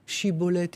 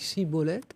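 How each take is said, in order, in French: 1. Le mot commence par un son ch. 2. Le mot commence par un simple son s. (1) "ils ne savaient pas dire Chibolette" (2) "ils ont dit Cibolette"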